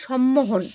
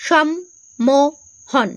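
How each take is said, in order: First: Said in the usual way. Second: "সম্মোহন" very slowly as সম, মো, হন; long pauses between the three syllables of "সম্মোহন"; broken into syllables. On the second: Shown as a demonstration. Teacher showing how the word splits, "সম্মোহন" syllable by syllable. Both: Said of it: "যদি ভেঙে ভেঙে বলো".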